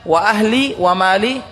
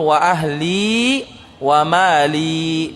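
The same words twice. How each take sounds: First: The final vowels are cut short. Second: The final vowels are held long. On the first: The speaker calls it wrong. "kalau dibaca wa ahli wa mali salah" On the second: The speaker calls it right. "Yang betul wa ahli wa mali, jadi panjangnya"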